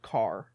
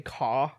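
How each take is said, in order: First: The final r sound is pronounced. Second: The final r sound is dropped. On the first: The speaker calls it right. "you're supposed to say "car."" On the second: The speaker calls it wrong. "how they say "caw""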